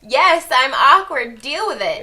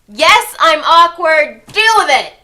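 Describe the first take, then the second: First: It is said fairly quietly. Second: It is said loudly, almost shouted.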